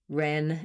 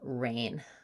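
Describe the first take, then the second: First: The vowel is a short open eh sound. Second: The vowel glides as a full diphthong. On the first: The speaker calls it wrong. "ren instead of rain" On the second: The speaker calls it right. "instead of rain"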